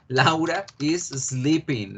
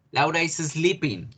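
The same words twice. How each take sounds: First: Slow, spaced-out example sentence; slow model repetition. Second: Said in the usual way. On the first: Shown as a demonstration. Teacher repeats Laura's activity for the class, slow model repetition. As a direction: say it slowly for language learners.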